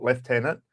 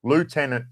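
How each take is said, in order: First: Lieutenant said as "leftenant", with an f sound; army pronunciation. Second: Lieutenant said as "loo-TEN-ant", no f sound; navy pronunciation. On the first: Streamer contrasts army and navy ranks, says "leftenant". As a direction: say lieutenant the British Army way: "lef-TEN-ant". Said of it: "why I say lieutenant, not lieutenant". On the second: Streamer explains why he says it the navy way, "loo-tenant". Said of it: "why I say lieutenant". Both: Shown as a demonstration.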